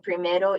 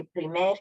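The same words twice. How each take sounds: First: PRIMERO with the final O kept; full final O. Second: PRIMER cut off after the R; final O dropped. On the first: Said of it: "you keep the O". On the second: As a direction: say PRIMER with no O at the end. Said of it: "you cut the O off". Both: Shown as a demonstration.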